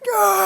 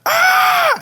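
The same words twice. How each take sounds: First: A round, soft, quieter scream. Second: A sharp, pointy, harsher scream. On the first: It imitates the speaker's own scream. "my scream is boba" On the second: It imitates the other person's scream. "Your scream is scream is Kiki"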